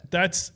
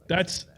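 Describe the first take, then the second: No difference in how they are said.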